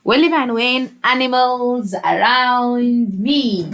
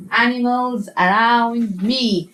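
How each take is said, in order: First: Said in the usual way. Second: Animals Around Me spelled out very slowly, each word drawn apart; slow modelled title. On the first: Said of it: "هنشرح يونت سكس". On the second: Shown as a demonstration. Teacher modelling the title slowly for first graders. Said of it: "نعلمهم إزاي ينطقوا".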